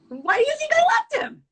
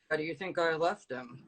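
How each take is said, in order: First: It is said in a high-pitched voice. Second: It is said in a low, deep register. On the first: "Then you can go high pitch with your voice also" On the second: "Let's go low register"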